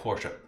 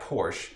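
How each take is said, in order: First: The final E is clearly sounded. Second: The final E is left silent. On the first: The speaker calls it right. "In Germany, the last letter E is always said" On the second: The speaker calls it wrong. "the Americans say Porsche, like Porsche. It actually, oh, it's wrong"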